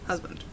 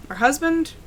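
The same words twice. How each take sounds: First: Low settled answer. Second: Rising, unsure question; questioning rise. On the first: Confirming the husband, low and soft. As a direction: lower and softer, a firm answer. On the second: Asking the player about her husband, rising question. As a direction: ask it, lifting the end. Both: Shown as a demonstration.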